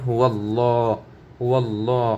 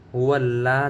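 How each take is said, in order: First: "হু আল্লাহ" with a heavy, rounded law; correct heavy l. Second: "হু আল্লাহ" with a light l and open aa; mistaken thin l. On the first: Teacher models for learners, "হু আল্লাহ" with full rounded law. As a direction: say "হু আল্লাহ" as huwal-law, long dark vowel. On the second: Teacher shows what to avoid, "হু আল্লাহ" with light laa. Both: Shown as a demonstration. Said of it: "যেন না হয়ে যায় এখানে".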